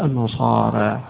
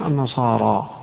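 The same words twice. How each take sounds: First: The final long vowel leans slightly toward 'e'. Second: The final long vowel is a fully open 'a'. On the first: "التقليل" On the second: "والفتح"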